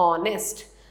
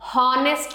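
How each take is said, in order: First: The word starts directly with a vowel sound. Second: The word starts with an audible h sound. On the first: The speaker calls it right. "एच silent है तो यहां पढ़ते हैं हम ऑनेस्ट" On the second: The speaker calls it wrong. "हॉनेस्ट नहीं बोलते, ह नहीं बोलना है"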